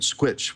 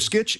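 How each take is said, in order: First: The name begins with an 'skw' sound. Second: The name begins with a plain 'sk' sound. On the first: The speaker calls it wrong. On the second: The speaker calls it right.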